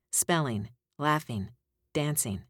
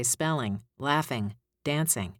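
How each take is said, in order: First: Spelling, laughing, dancing with the final G dropped, ending in an n sound. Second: Said in the usual way. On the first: Shown as a demonstration. Coach showing students words with the G dropped. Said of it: "dropping the G, it sounds like". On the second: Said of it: "Normally I would say".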